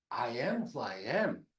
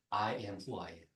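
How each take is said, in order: First: Very slow, weight on "am" with a falling end; slow emphatic quote. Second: Soft, hushed, reverent recitation; quiet solemn quote. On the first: Preacher repeating God's name for emphasis, very slow. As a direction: draw out "I am who I am", stressing "am". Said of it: "여기서 나오는 I am이". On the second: Preacher quoting God's name to the church, hushed. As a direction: breathe it low like a holy name. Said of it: "그 유명한 말이에요". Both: Shown as a demonstration.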